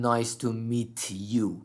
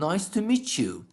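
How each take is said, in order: First: The t and y are said as separate sounds. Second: The t and y blend into a 'ch' sound. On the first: The speaker calls it wrong. "من نمیگم" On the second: The speaker calls it right. "میگم"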